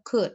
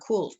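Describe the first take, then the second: First: The word is said with no L sound. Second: The word is said with an audible L sound. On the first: The speaker calls it right. "Jadi L-nya tidak dibaca dia" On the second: The speaker calls it wrong. "bukan could"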